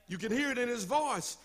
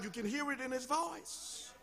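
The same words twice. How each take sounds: First: Said in the usual way. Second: Dropped almost to a murmur; hushed. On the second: Shown as a demonstration. Preacher draws the congregation in, softly. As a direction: pull it right down, inviting them to listen.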